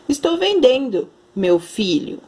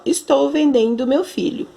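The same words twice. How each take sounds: First: There is a pause before 'meu filho'. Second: It runs straight through without a pause. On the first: The speaker sells a product and addresses someone as 'my son'. "quando eu coloco a vírgula bem aqui" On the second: The speaker is selling their own son. "Se eu leio sem vírgula, sem nada"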